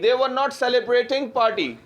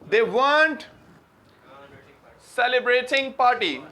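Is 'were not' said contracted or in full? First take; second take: full; contracted. First: The words were and not are said separately. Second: Were and not are joined into weren't. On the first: "वर नॉट को इतना बोला नहीं जाता" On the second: "weren't बोला जाता है भाई"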